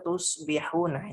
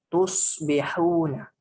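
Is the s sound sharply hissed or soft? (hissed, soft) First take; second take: soft; hissed. First: The s sound is soft without a sharp hiss. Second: The s sound is a sharp, drawn-out hiss. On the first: The speaker calls it wrong. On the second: The speaker calls it right.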